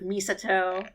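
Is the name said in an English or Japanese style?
Japanese. The name is said with Japanese-style pronunciation. The speaker calls it right. "instead of Misato"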